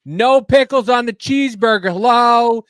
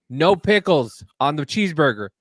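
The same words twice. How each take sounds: First: Higher and louder, fed up with the bot; frustrated customer yelling at a drive-thru speaker; exasperated yell. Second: Said in the usual way. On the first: Retold or imitated. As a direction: shout the order at a machine that won't listen.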